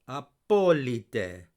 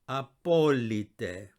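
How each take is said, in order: The two takes are said the same way.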